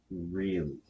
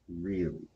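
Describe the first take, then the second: No difference in how they are said.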